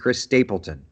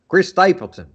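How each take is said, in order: First: The name is said in a normal accent. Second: The name is said in a put-on accent.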